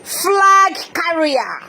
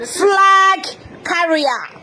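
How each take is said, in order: First: "Flag carrier" drawn out very slowly, FLAG stressed; mocking stress on flag. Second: "Flag carrier" higher and very slow through a laugh; laughing mockery. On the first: Host mocking opponents as flag carriers, slow stressed jeer. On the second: Host jeering at opponents as flag carriers, laughing mockery. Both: Shown as a demonstration. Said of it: "ndị flag carrier".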